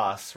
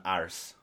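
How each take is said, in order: First: "arse" as the Irish assistant says it; Irish pronunciation. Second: Said in the usual way. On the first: Retold or imitated. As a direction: imitate the Irish way of saying "arse". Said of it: "it does say arse rather than arse". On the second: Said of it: "rather than arse".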